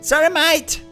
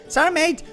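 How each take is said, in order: First: It is said with an Australian accent. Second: It is said without an Australian accent. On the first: The speaker calls it right. "I've probably heard an Australian talk like three times" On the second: The speaker calls it wrong. "that was the wrong pronunciation"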